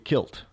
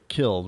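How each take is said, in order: First: The word ends with a sharp t sound. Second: The word ends with a voiced d sound. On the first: "they say kilt" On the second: "They don't say killed"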